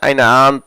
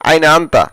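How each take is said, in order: First: The word anta is shortened, its final vowel cut. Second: The word anta ends with a full vowel.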